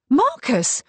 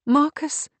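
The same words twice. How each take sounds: First: High, loud outcry; shocked cry. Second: High, rising, unfinished question; raised voice, doubtful and left hanging; trailing doubt. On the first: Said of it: "cried Kate". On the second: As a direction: question the name and let it die. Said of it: "She let the sentence die". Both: A narrator's reading.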